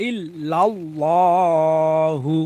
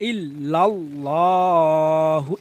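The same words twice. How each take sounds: No difference in how they are said.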